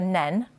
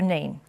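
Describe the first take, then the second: First: The vowel is short, as in 'pen'. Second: The vowel is long, as in 'seen'. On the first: This is the Northampton pronunciation. "If you live in Northampton, they say the River Nen" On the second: This is the Peterborough pronunciation. "in Peterborough it's the River Nene"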